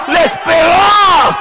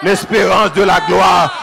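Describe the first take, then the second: First: Drawn-out high cry of the word l'espérance; l'espérance held long and high, slow; climactic shout. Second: Landing the phrase after the peak, slowly; drawn-out resolve. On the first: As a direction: stretch l'espérance into a soaring preacher's peak. Climax of the sermon chant. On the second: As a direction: bring L'espérance de la gloire back down, slowly and weighty. Answering line after climax. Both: Acted.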